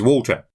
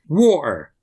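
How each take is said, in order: First: The L sound is clearly pronounced before the T. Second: The L sound is dropped, sounding like water. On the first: "it's Walter" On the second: "in the Somerset accent, just becomes water"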